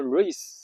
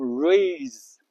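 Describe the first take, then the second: First: "race" with a short A, ending in voiceless S; short vowel in race. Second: "raise" stretched slowly, long A before Z; long vowel in raise. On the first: Teacher contrasting two words, "race" with short A. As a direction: keep the A of "race" short before the S. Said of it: "发的声音比较短". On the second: Teacher contrasting two words, "raise" with long A. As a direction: draw out the A in "raise", ending in Z. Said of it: "发的声音比较长". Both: Shown as a demonstration.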